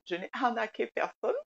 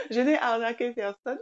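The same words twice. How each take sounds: First: Said in the usual way. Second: Laughing through the words. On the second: Real, not acted. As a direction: say it while laughing at the idea. Repeats denial through laughter.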